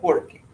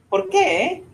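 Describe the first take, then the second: First: "Por qué" kept down, no rise, as porque; answering intonation. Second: "Por qué" very high, rising at the end; questioning intonation. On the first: Teacher repeats the contrast for because, "Por qué" without a rise. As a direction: stress POR in "Por qué" and let qué fall. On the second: Teacher repeats the contrast for why, "Por qué" as a high rising question. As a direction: send qué right up in "Por qué". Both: Shown as a demonstration. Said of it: "it's the intonation that makes the difference".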